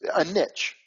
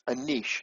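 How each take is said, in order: First: Niche is said with a short vowel and 'ch'. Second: Niche is said with a long vowel and 'sh'. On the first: The speaker calls it wrong. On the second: The speaker calls it right.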